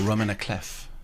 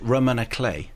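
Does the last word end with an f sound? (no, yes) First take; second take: yes; no. First: The last word ends with an f sound. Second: The last word ends in a vowel, no f. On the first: This follows the way bass clef is said. "it's a Romana Clef" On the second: This follows the French way of saying it. "Clay, I believe, is the French"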